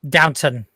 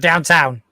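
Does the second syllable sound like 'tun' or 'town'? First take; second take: tun; town. First: The second syllable is a short, weak 'tun'. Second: The second syllable is a full 'town'. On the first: The speaker calls it right. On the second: The speaker calls it wrong. "not downtown"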